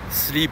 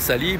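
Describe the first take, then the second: First: Said plainly, with no extra vowel added. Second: An extra vowel is inserted between the consonants.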